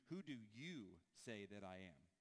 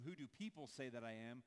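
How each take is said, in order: First: Slow, lower, pointed "Who do you say that I am", weight on "you"; slowed, lower question, pressing on "you"; stress on you. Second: "people" lifted with a rising end; "Who do people say" with "people" stressed and rising. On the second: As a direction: lean on "people", question rising. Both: Shown as a demonstration. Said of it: "Jesus flips the question on its head".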